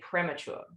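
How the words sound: The word is pronounced a non-American way. This is how the speaker's own group says it. "We say premature"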